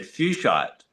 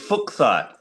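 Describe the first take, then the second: First: The first syllable sounds like 'fyoosh'. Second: The first syllable sounds like 'fook'. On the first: "I've always had fuchsite" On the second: "surname was actually pronounced Fook"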